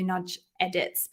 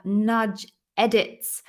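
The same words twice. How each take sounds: First: Said in the usual way. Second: Slow, each syllable spelled out; careful over a tricky name. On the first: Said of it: "so much easier for me to get my mouth around". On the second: Real, not acted. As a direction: feel your way through the name slowly. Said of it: "really hard to get my mouth around those two words".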